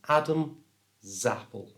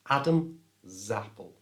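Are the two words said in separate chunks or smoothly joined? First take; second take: separate chunks; separate chunks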